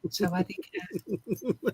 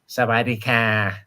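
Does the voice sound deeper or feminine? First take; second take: feminine; deeper. First: It is said in a soft, feminine voice. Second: It is said in a deeper, less feminine voice.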